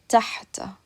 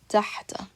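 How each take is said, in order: The two takes are said the same way.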